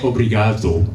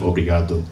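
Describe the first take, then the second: First: It is said with a Spanish-sounding accent. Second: It is said with a Portuguese-sounding accent. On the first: The speaker calls it wrong. "It's not Spanish!" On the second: The speaker calls it right. "instead of"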